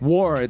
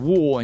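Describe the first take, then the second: First: It is said with an American accent. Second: It is said with a British accent.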